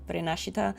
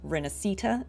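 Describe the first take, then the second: First: It is said with an Italian accent. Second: It is said with an English accent. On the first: It is how an Italian would say it. "instead of Rinascita" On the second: It is the game's unified international version. "we say Rinascita"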